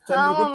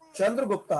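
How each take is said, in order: First: The name ends on the consonant 't'. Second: The name ends with a final 'a' vowel. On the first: The speaker calls it right. "चंद्रगुप्त हम पढ़ेंगे" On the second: The speaker calls it wrong. "गुप्ता नहीं पढ़ते"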